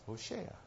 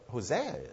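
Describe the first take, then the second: First: The middle consonant is an sh sound. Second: The middle consonant is a plain s sound. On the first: The speaker calls it right. "that's what Hosea is, Hoshea" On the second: The speaker calls it wrong. "which we just mispronounced"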